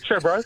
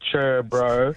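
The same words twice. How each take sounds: First: It is said quickly and clipped. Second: It is said slowly, drawn out.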